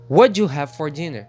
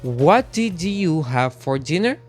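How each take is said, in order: First: The first words blend together into one sound. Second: Each word is said separately and fully. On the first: "Agora com connective speech" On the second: "sem o connective"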